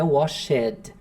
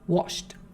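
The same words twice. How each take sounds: First: The ending is said as an extra syllable. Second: The ending is a bare consonant sound. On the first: The speaker calls it wrong. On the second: The speaker calls it right.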